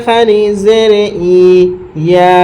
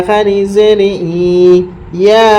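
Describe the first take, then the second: No difference in how they are said.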